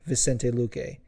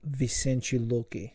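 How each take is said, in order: First: The name is said with an English accent. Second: The name is said with a Portuguese accent. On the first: "if you don't say it with a fucking super on point Portuguese accent like me, you might say" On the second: "is how it's supposed to be pronounced"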